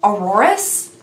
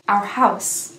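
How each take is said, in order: First: It sounds like 'auroras', with extra syllables. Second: It sounds like 'our house', in two syllables. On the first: The speaker calls it wrong. "I don't know where I got the extra letters from" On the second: The speaker calls it right. "it's actually pronounced Our House"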